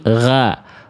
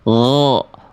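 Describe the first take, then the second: First: The vowel is a thin, pure a. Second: The vowel is full and sounds like o. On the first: "Vokal A-nya vokal A yang murni" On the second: "Bedakan kalau naik pangkal lidah"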